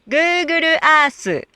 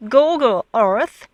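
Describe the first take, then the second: First: Google Earth said slowly as "guuguru aasu", with added vowels; Japanese katakana pronunciation. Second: Said in the usual way. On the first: Shown as a demonstration. Teacher shows Japanese speakers' Google Earth, in katakana pronunciation. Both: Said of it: "Most Japanese cannot hear vowels plus R".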